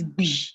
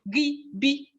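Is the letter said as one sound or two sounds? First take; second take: one sound; two sounds. First: It is said as one single joined sound. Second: It is said as two separate letter sounds. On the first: The speaker calls it right. "It is just one sound, not two. It is B" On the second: The speaker calls it wrong. "you don't say G, B. You don't say that"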